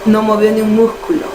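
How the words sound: The s sound becomes a breathy j-like sound. This is how people from the capital say it.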